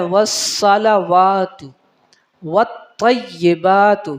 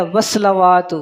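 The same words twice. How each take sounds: First: والصلوات said slowly, every syllable separate; correct recitation. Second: والصلوات said quickly with the sounds run together; common mistake. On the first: Teacher modelling the right way to say والصلوات. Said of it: "تو پڑھنا کیا ہے؟". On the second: Teacher showing the frequent error in والصلوات. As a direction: rush والصلوات the careless way. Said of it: "اس میں اکثر غلطی کی جاتی ہے". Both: Shown as a demonstration.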